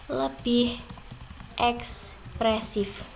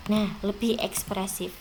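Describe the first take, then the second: First: "Lebih" set apart, then "ekspresif" drawn out slow; slow stressed repeat. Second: Said in the usual way. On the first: Shown as a demonstration. Teacher drills the key phrase for her pupils: "Lebih", pause, slow "ekspresif".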